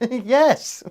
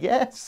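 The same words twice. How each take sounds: First: The word comes with a flustered chuckle. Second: The word sounds flat and unconvincing. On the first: "Flustered chuckle"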